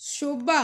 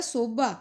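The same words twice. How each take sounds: First: First शोभा opens on sh; sh form. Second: शोभा said as sobha; Punjabi s form. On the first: Teacher giving the Hindi word, शोभा with sh. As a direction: say शोभा with initial sh. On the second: Teacher showing the Punjabi form, शोभा with s. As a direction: open शोभा on plain s. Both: Shown as a demonstration. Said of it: "Punjabi च हो जाएगा".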